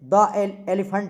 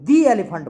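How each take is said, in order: First: The article is said with a reduced 'thuh' vowel. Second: The article is said with a full 'thee' vowel. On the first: The speaker calls it wrong. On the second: The speaker calls it right.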